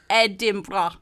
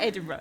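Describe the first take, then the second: First: It is said in a put-on regional accent. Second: It is said in the speaker's ordinary accent.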